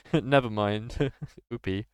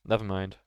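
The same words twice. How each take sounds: First: Slow, giggling never mind; laughing. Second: Said in the usual way. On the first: Real, not acted. Player brushing off the accent mistake while laughing.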